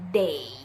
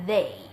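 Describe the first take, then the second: First: The word starts with a D sound. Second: The word starts with a voiced TH sound. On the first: The speaker calls it wrong. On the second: The speaker calls it right.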